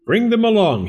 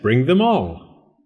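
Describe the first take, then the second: First: "Bring them along" in a high lilting voice, "them" stressed; high quick call. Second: "bring them all" slow, "them" stressed and louder; slow emphatic repeat. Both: A narrator's reading. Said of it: "he said".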